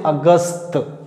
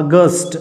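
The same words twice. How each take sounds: First: The usual Hindi अगस्त. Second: अगस्त ending in a hard retroflex ट; crisp final ट on अगस्त; English August. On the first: Teacher to class: the Hindi-style अगस्त. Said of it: "हम लोग बोलते हैं अगस्त". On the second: Teacher to class: the English अगस्त with a hard ट. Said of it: "ट pronounce करना पड़ेगा". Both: Shown as a demonstration.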